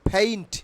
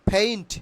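Both takes have the same delivery.

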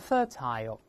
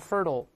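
First: Said with a British accent, clear t, final 'aisle'. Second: Said with an American accent, r-coloured, flapped t. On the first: "英国人都是fertile" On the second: "美国人都是fertile"

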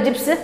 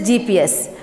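First: It is said as a single word, 'gips'. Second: It is said as three separate letters, G-P-S. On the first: The speaker calls it wrong. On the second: The speaker calls it right. "it is GPS. We don't shorten the word like acronym. Here every letter is pronounced"

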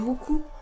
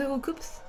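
First: The name ends without an s sound. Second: The name ends with an s sound. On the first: This is the actual name. The speaker calls it right. "Mais c'est Roku" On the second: This is how people usually say it because of the spelling. The speaker calls it wrong. "on dit Roukoups"

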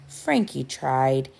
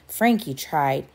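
No difference in how they are said.

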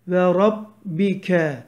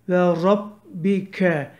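Both takes have the same delivery.

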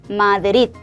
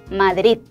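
First: The stress falls on the last syllable. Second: The same.

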